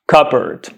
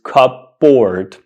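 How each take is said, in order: First: It is said reduced, like cubberd. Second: It is said as two full parts, cup-board. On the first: The speaker calls it right. "The correct pronunciation is cupboard" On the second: The speaker calls it wrong. "This word is not pronounced cupboard. That's wrong"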